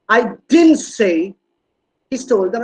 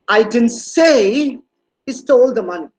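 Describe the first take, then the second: First: The stress falls on the word "didn't". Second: The stress falls on the word "say". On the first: It is strongly denied that it was said. "Look at the stress on didn't. It's a strong negation" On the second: It was implied but not said out loud. "No, it was not very verbal on my on my part"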